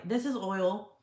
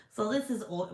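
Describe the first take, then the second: First: Said in the usual way. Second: A slightly strange voice that slips out; odd put-on voice. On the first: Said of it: "Okay, so anyway". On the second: Real, not acted. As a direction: says it in a voice that isn't quite her own. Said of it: "Why am I talking like that?".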